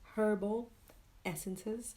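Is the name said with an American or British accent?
British. It is said with a British accent. "British English"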